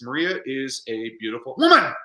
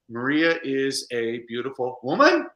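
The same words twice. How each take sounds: First: It is said as an excited exclamation. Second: It is said as a question, rising.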